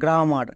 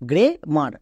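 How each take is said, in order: First: The first vowel is an open 'ah' sound. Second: The first vowel is an 'eh' sound. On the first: The speaker calls it wrong. "একে অনেকে উচ্চারণ করতে গিয়ে ভুল করে, এর উচ্চারণ করে গ্রামার" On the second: The speaker calls it right. "কিন্তু এর উচ্চারণ হবে গ্রে মার, গ্রামার না কিন্তু"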